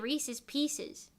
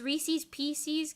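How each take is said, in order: First: The syllables do not all share one vowel. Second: All four syllables carry the same vowel sound. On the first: The speaker calls it right. "it's supposed to be Reese's Pieces" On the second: The speaker calls it wrong. "gives you the same vowel sound four times in a row"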